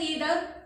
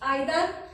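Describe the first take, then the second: First: It begins with an 'ee' sound. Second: It begins with an 'eye' sound.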